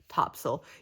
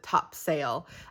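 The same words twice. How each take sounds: First: The word is pronounced differently from its spelling. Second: The word is pronounced just as it is spelled. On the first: The speaker is a local. "all the locals and everybody else calls it" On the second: The speaker is not from the area. "based on the way it's spelled, everybody who's not from here calls it"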